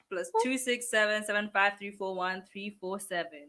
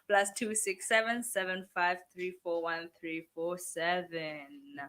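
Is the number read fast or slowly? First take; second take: fast; slowly. First: The number is read at a quick pace. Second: The number is read at a slow pace.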